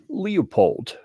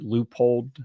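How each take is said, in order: First: The name begins with a "lee-oh" sound. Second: The name begins with a "loo" sound. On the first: The speaker calls it wrong. "I find it entertaining to call this company Leopold" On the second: The speaker calls it right. "like you'd spell it L O O P O L D"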